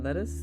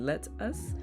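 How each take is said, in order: First: The two words blend into one word, like lettuce. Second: The two words are said separately and clearly. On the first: It sounds like the name of a vegetable. "but it became lettuce" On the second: An invitation to do something together. "I was saying "let us,""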